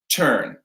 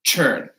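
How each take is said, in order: First: It starts with a hard t sound. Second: It starts with a ch-like sound. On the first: "In American English, a hard T" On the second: "In British English, it'll be a C H"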